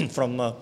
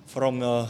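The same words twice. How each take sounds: The two takes are said the same way.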